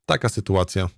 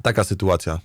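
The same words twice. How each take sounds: The two takes are said the same way.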